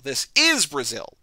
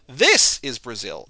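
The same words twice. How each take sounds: First: "is" punched, slow and deliberate; stress on the wrong word. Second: "This" hit hard, slow and deliberate; stress on the wrong word. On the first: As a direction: lean on "is" in "This is Brazil". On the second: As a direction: lean on "This" in "This is Brazil". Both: Pretend. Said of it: "putting the emphasis on the wrong word".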